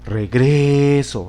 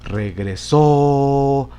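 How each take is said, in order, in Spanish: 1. El acento está en la segunda sílaba. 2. El acento está en la última sílaba. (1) "Si lo ponemos en la penúltima sílaba" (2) "Vamos a ubicarla entonces en la última sílaba"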